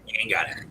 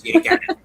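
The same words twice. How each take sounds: First: Dropped low and soft, a deadpan verdict. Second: High, sing-song jab; mock taunt. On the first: Pretend. Repeating the verdict to the actor, low and soft deadpan. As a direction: say it low and final, like closing the case. Teasing an actor about horror roles. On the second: Telling a remake actor he can't do horror, high mock taunt. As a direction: tease him up high like a playground taunt.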